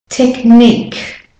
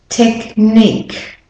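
The two takes are said the same way.

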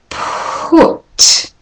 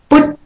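First: The p has a strong puff of air. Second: The p has no puff of air. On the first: The speaker calls it right. "Can you hear all that air?" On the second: The speaker calls it wrong. "I'll do it unaspirated"

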